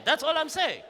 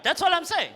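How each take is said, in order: First: Laughing through the repeat; laughing shout. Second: Higher, louder punchline; emphatic. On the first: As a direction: crack up as you repeat it. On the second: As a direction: hammer the punchline home. Punchline repeated. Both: Real, not acted.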